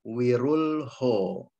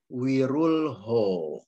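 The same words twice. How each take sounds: Both takes have the same delivery.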